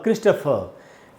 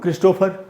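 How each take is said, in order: First: The middle vowel is a weak 'uh' sound. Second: The middle vowel is a full 'o' sound. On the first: The speaker calls it right. "यहाँ ट के बाद आधा अ है" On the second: The speaker calls it wrong. "ये जो क्रिस्टो में ओ हम लगा रहे हैं ना, वो ओ ओ नहीं होगा"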